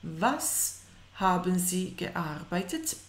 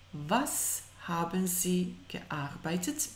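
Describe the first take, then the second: No difference in how they are said.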